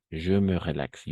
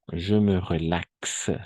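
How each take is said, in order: First: Said in the usual way. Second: French said slowly, each syllable clear; teacher's slow demo of "Je me relaxe"; slow model pronunciation. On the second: Shown as a demonstration. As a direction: spell out "Je me relaxe" slowly for the class. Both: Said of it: "Entonces vamos a decir".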